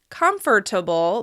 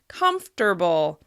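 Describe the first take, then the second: First: The word is said with four syllables. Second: The word is said with three syllables. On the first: "Instead of having four syllables" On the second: "the word actually has three syllables"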